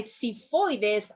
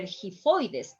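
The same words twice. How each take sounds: First: Xiphoides as "see-FOI-des"; "xiphoides" starting on a plain S. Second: Xiphoides starting with H; wrong pronunciation. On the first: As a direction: say "xiphoides" with an S first. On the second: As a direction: say "xiphoides" as "hee-FOI-des". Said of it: "that's not the case". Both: Shown as a demonstration.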